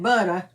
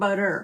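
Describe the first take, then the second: First: The word ends with an open 'ah' sound. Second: The word ends with an 'er' sound. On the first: This is how a New Orleans speaker said it. "everything ended in an A. So we had butter" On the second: This is the usual way to say it. "not butter"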